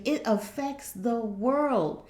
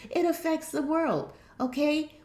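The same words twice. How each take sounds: First: Slow emphasis. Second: Lifted, pressing pitch; higher emphasis. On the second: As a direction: repeat it higher to drive it home. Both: Shown as a demonstration.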